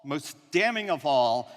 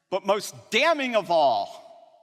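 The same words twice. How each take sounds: First: Said in the usual way. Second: Slower and louder, leaning hard on "damning"; "damning" drawn out and punched like a verdict; dramatic emphasis. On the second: Acted. Speaker to programmers, building to the punchline, slow and loud. Rhetorical build-up, repeated phrase.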